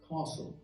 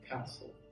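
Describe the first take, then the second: First: It is said with a British accent. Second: It is said with an American accent.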